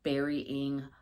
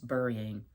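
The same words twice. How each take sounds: First: The word has its standard pronunciation. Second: The word has a regional Appalachian pronunciation. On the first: "I know, guys, it's burying" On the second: "My mother said it till the day she died"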